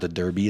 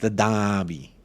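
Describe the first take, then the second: First: Derby is said in a plain accent. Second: Derby is said in a Boston-like accent. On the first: The speaker calls it wrong. "It's not the Derby" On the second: The speaker calls it right. "I have to do it in a Boston accent, apparently"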